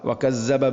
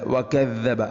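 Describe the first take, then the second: First: The doubled middle consonant sounds like s. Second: The doubled middle consonant sounds like soft th. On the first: The speaker calls it wrong. "ചില ആളുകൾ വകസ്സബ ... ഇങ്ങനെ വായിക്കുന്നു" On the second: The speaker calls it right. "നാവിൻ്റെ അറ്റം ... മുൻ പല്ലുകളുടെ ഇരു നിരകൾക്കിടയിലൂടെ അല്പം മുന്നോട്ട്"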